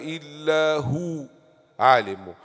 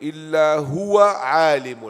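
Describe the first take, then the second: First: There is a pause after هو. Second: هو runs straight into the next word. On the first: "you can say two two ways" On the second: "if you want to connect"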